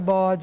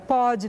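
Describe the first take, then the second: First: It begins with a voiced B sound. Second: It begins with a voiceless P sound. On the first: This is the intended word. The speaker calls it right. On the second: This is how the child with blocked ears says it. The speaker calls it wrong.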